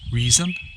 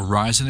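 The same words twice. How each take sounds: First: The name is said with a Swedish pronunciation. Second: The name is said with an English pronunciation. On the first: "I think that's right for Swedish" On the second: "if you want to say it with a, an English accent"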